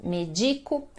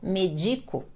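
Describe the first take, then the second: The two takes are said the same way.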